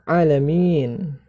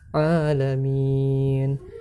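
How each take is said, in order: First: The long vowel is rushed and clipped short. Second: The long vowel is held for two beats. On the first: The speaker calls it wrong. "Jangan sampai terlalu cepat" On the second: The speaker calls it right. "Tapi harus alamin"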